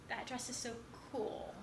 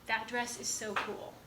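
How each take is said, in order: First: Soft, with COOL set apart after a short pause; shifted emphasis. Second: Said in the usual way. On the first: Shown as a demonstration. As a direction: hold back, then drop "cool" quietly. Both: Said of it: "words are being emphasized".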